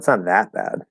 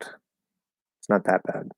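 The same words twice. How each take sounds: First: It is said with strong, energetic emphasis. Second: It is said plainly, without extra emphasis. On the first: "if we wanted to emphasize" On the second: "we would just say that"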